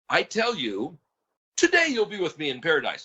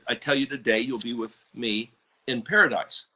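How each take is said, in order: First: The pause comes after the word you. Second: The pause comes after the word today. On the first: They will be in paradise this very day. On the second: The telling happens today; paradise comes later.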